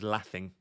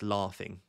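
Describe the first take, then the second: First: The word is said in a Birmingham accent. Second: The word is said in a standard accent. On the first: The speaker calls it wrong. "she's from Birmingham... So she says laughing" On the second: The speaker calls it right. "even though it's laughing"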